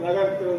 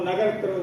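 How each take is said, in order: No difference in how they are said.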